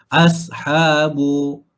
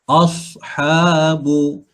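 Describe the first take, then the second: First: The first consonant is thin, tongue not raised. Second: The first consonant is thick, tongue raised. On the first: The speaker calls it wrong. "dia tak jadi isti'la" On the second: The speaker calls it right. "sifatnya adalah isti'la, tebalkan"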